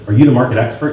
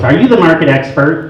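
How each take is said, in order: First: Said in the usual way. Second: Mildly mocking, higher-pitched challenge; imitated challenging wife. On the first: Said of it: "This guy calls me up and he says". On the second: Wife phoning a rival agent, imitated challenge. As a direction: put on a wife's suspicious question. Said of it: "got a call from his wife first".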